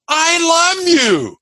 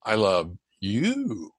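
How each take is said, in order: First: "I love you" high, drawn out and ringing; exuberant inflection. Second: "I love you" low, slow and soft, lingering on "you"; low, tender inflection. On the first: Coach showing how inflection changes the words, high exuberant emphasis. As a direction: sing out "I love you" slowly on a high pitch. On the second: Coach showing how inflection changes the words, low slow emphasis. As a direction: draw out "I love you" deep and hushed. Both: Shown as a demonstration. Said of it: "the inflection or emphasis is different".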